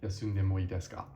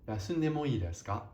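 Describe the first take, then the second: First: The pitch stays fairly flat and casual throughout. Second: The pitch moves clearly with careful inflection throughout.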